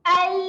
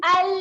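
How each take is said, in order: Both takes have the same delivery.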